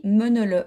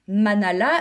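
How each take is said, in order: First: "menele" with muted schwa vowels in place of a; local pronunciation. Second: "manala" said with full a vowels; pronounced as spelled. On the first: Knitter passing on Christine's Alsatian pronunciation, "menele" with muted eu vowels. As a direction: say "menele" as meu-neu-le, last vowel swallowed. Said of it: "elle m'a dit la prononciation". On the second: Knitter reading out the written name of the Alsatian bonhomme, "manala" as spelled. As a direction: say "manala" with an ah sound in each syllable. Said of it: "elle a écrit manala". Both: Shown as a demonstration.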